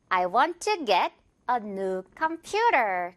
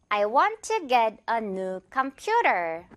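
First: Very slow read, 퓨 of computer stressed; slowly, leaning on com-PU-ter; slow model sentence. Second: Very slow repeat with PU of computer stressed; again slowly, com-PU-ter; slow model sentence. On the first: (아주 천천히, computer의 퓨에 강세) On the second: (천천히 다시, 퓨에 강세) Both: Shown as a demonstration. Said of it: "퓨 부분에 강세 주면서".

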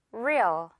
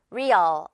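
First: Real with the final sound softened away; light ending. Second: Real with its end said fully and loosely; heavy second part. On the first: Teacher showing the correct way, Real with a reduced ending. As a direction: let the tail of Real die off lightly. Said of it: "뒷부분을 가볍게". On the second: Teacher showing learners the mistake, Real with a heavy ending. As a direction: give the tail of Real full weight. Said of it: "아니고요". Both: Shown as a demonstration.

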